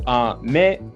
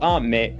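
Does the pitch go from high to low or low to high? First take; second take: low to high; high to low. First: The pitch goes from low to high. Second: The pitch goes from high to low. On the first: The word means candy. "depending on whether you go from low to high" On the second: The word means rain. "when you go from high to low"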